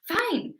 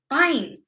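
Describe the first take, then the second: First: It sounds happy and willing. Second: It sounds angry and exasperated. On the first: The person is glad to agree. "maybe they're really happy to say yes" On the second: The person is exasperated and has given up. "with a sort of angry intonation"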